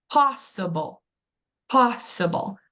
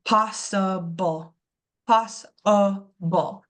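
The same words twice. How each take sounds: First: "possible" with a firm POSS, falling away after; stress on POS. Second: "possible" slowly split as POSS-uh-bull; schwa drawn out. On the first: Teacher confirming the stressed syllable, POSS strong in "possible". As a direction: punch the first syllable of "possible". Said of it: "So my pos is stress". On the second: Teacher revealing the schwa, "possible" syllable by syllable. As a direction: sound out "possible" in slow syllables, exposing the uh. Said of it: "I can hear that uh in my throat". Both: Shown as a demonstration.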